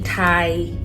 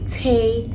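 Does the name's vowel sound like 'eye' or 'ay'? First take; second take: eye; ay. First: The vowel sounds like 'eye', as in 'tie'. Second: The vowel sounds like 'ay', as in 'day'. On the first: The speaker calls it wrong. "Please don't say Thai. No" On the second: The speaker calls it right. "that's how you pronounce it"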